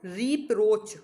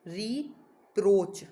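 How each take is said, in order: First: Said in the usual way. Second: रिप्रोच stretched very slowly; slow drilled pronunciation. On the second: Shown as a demonstration. Teacher repeating the word for students, very slow. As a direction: say रिप्रोच slowly, each sound clear. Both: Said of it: "rebuke जैसा ही है एक और".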